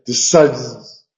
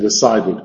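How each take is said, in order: First: The word is said with two syllables. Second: The word is said with three syllables. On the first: The speaker calls it wrong. "no se puede decir decides" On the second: The speaker calls it right. "Hay que decir decided"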